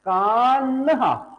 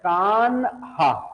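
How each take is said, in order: First: The n and h join as one breathy sound. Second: The n and h are split into separate syllables. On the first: The speaker calls it right. "वास्तव में बेटा कैसा है? कान्हा" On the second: The speaker calls it wrong. "But ये गलत है"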